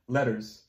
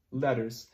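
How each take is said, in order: Both takes have the same delivery.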